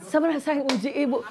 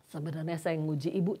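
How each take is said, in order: First: Higher, acted voice of the testing woman; voiced counselee. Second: Quiet retelling. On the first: Woman admitting she was testing the counselor, higher acted voice. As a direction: play her sly reveal. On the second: Retold or imitated.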